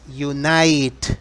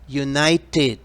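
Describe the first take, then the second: First: The word ends without a final 'ted' sound. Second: The word ends with a clear 'ted' sound. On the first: The speaker calls it wrong. "no es Unite, no" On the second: The speaker calls it right. "como termina en Ted, se pronuncia tit"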